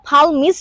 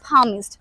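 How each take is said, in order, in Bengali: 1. এই শব্দে L ধ্বনিটি উচ্চারিত হয়। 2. এই শব্দ থেকে L ধ্বনিটি বাদ যায়। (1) "এইখানে কিন্তু palmist হবে না" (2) "এটা একটা সাইলেন্ট এল লেটার ওয়ার্ড, বলতে হবে palmist"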